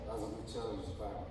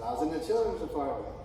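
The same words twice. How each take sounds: First: Softer and fast, a low throwaway mumble; Matt's real reply, muttered softly and fast; mumbled flat quote. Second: Brighter, slightly raised retelling of Matt; a hint of a cheery friend; Matt's line, voiced a touch lively; imitated pastor-friend. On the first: Retold or imitated. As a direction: say it quick and quiet like Matt really did. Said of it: "That's really what he said". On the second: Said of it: "He didn't say it like that either".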